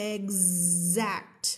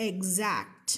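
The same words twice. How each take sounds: First: "exact" drawn out, the x buzzing like gz; pronunciation demo. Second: "Exact" said with a z sound, eg-ZAKT; pronunciation demo. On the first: Teacher repeating the word for students, stressing the buzzing z in "exact". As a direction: stretch "exact" so the z sound vibrates. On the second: Teacher modelling the word for students, pronouncing "Exact" as eg-zakt. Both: Shown as a demonstration. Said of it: "X อยู่ระหว่าง E กับ A ออกเสียงเป็น Z".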